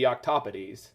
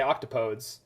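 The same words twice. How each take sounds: First: It is pronounced the Latin way. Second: It is pronounced the English way. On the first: "in Latin, it should be octopodes" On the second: "most English speakers would say octopodes"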